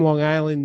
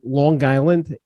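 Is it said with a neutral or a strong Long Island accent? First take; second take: neutral; strong. First: It is said in a neutral accent. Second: It is said in a strong Long Island accent.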